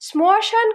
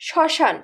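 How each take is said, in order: First: The word is said with an m sound. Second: The word is said with no m sound. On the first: The speaker calls it wrong. "শ্মশান কিন্তু বলছি না" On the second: The speaker calls it right. "কিন্তু উচ্চারণ করছি কি শ্মশান"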